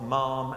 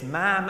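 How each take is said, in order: First: Ma'am with a long open ah, as in farm. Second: Ma'am with a short flat a, rhyming with ham. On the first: Royal aide showing the wrong way, ma'am rhyming with farm. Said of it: "not ma'am as in farm". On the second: Royal aide correcting Tony Blair, ma'am rhyming with ham. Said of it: "ma'am as in ham". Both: Retold or imitated.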